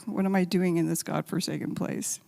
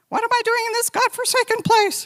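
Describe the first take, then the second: First: Said in the usual way. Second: Much higher, louder mock whine; a hammed-up voice of her desperate younger self; whiny complaint. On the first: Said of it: "same, same prayer". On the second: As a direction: whine it like a miserable newcomer. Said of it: "and I was going".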